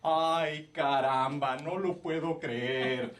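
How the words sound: It is delivered in an exaggerated, forced way. The line was planted by someone else. The speaker calls it wrong. "something very obvious that the director told someone to say in Spanish ... it sounds fake"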